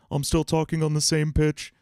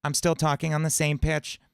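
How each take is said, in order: First: Same pitch, larynx lowered, darker and louder; lowered-larynx dopey cartoon voice; demonstrating Patrick's dropped larynx. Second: Same pitch, larynx raised high; bright high-larynx cartoon squeak; demonstrating SpongeBob's raised larynx. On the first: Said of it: "Or Patrick". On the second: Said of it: "So it sounds like SpongeBob". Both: Shown as a demonstration.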